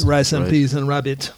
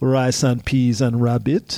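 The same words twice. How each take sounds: First: The phrase is said at a quicker pace. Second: The phrase is said at a slower pace.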